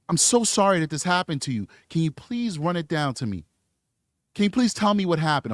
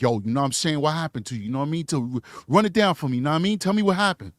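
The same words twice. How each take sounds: First: Polite, articulate professional voice; proper professional. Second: Lower, casual street slang, streetwise talk. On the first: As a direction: speak carefully like a courteous officer. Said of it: "And he would say". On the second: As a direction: toss it off loosely like a homie, a light imitation. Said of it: "talking to all these people like". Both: Retold or imitated.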